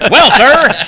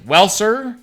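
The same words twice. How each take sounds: First: It is said in a put-on hillbilly accent. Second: It is said in the speaker's plain accent.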